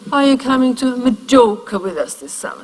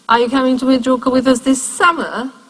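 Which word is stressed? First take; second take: Majorca; summer. First: The strongest stress falls on Majorca. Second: The strongest stress falls on summer. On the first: A neutral question. "the most neutral reading. The most stress is on Majorca" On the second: Summer is contrasted with winter. "or in winter, because we also go there in winter"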